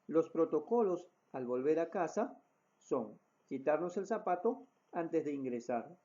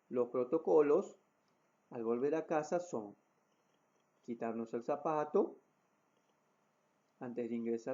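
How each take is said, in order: First: It is spoken at a normal pace. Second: It is spoken at a slow pace. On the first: "utilizando la voz normal o un ritmo de voz normal" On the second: "el ritmo de voz pausado"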